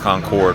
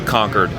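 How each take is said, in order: First: It does not sound like the word 'conquered'. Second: It sounds like the word 'conquered'. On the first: This is how people from the North Carolina town say it. "But we say Concord. Where we're from" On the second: This is how other towns of that name say it. "as if like you were conquering a city, conquered like that"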